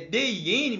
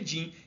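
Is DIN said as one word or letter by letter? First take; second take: letter by letter; one word. First: Each letter is named separately. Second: It is said as a single word. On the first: This is how the name is written. "É D I N" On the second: This is how people actually say it. "mas a gente pronuncia"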